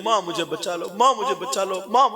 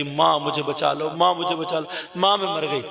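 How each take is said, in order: First: Rising, louder desperate plea; girl screaming for mother. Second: A mild hint of a frightened daughter crying for mother; plead, not yet at full cry; girl screaming for help. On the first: Preacher to listeners, the girl's second, louder scream. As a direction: cry out to her mother as she is eaten. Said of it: "कह रही है". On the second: Preacher to listeners, the daughter's first frightened cry. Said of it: "अब ये चीखने लगी". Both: A narrator's reading.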